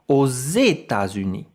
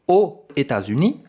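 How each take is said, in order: First: A z sound links the two words together. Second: The words are said without a linking z sound. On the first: The speaker calls it right. "I say" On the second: The speaker calls it wrong. "I don't say"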